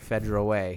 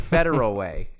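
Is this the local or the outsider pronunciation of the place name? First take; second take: local; outsider. First: It is said the way locals pronounce it. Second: It is said the way outsiders pronounce it. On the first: This is how people from the area say it. The speaker calls it right. "She said it right there" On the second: This is how people not from the area say it. The speaker calls it wrong.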